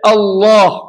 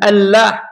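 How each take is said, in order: First: The L is heavy and dark, vowel deep. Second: The L is light and clear, vowel bright. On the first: The speaker calls it right. "kita kena baca dengan lafaz yang tebal" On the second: The speaker calls it wrong. "bukan Allah"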